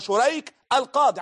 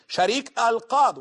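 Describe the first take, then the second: First: The first syllable of the name has another vowel. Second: The first syllable of the name has an 'a' vowel. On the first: The speaker calls it right. "ولكن هو شريك القاضي" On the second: The speaker calls it wrong. "وينطق البعض بالفتح على شين شريك القاضي"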